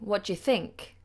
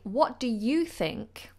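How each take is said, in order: First: The word you is said in a weak form. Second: The word you is said in its full form. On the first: It is an ordinary, general question. "normally, you would. You'd say" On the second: The speaker really wants to know their opinion. "I don't use the weak form of you"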